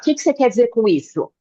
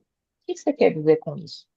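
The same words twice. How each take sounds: First: It is asked in a hurried, agitated way. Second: It is asked calmly and slowly.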